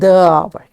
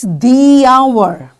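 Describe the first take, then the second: First: 'The' is pronounced like 'thuh'. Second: 'The' is pronounced like 'thee'. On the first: The speaker calls it wrong. "not the hour" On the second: The speaker calls it right. "That's why it's the hour"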